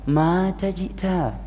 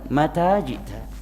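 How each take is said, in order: First: The first vowel is drawn out long. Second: The first vowel is short. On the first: It says someone died and the listener came. The speaker calls it wrong. "diikutkan ke intonasi orang Indonesia" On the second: It asks when the listener came. The speaker calls it right. "ma-nya pendek"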